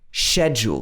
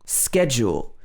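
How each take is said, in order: First: The word has a British English pronunciation. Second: The word has an American English pronunciation. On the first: "This is more like the native British English pronunciation" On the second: "The U S pronunciation is schedule"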